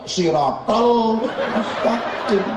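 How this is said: The t sounds are pronounced with a Balinese accent.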